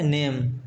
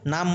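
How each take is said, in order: First: The vowel is an 'ay' sound. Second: The vowel is a long open 'ah' sound. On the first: The speaker calls it right. "ये है नेम" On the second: The speaker calls it wrong. "इसको नाम मत पढ़ना"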